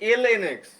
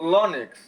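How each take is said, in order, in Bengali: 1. "ln" দুটি আলাদা বর্ণ হিসেবে উচ্চারিত হয়। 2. "ln" একটি শব্দাংশ হিসেবে উচ্চারিত হয়। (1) "এটা কিন্তু আসলে এল এন এক্স" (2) "অনেকেই বলি এটা লন এক্স"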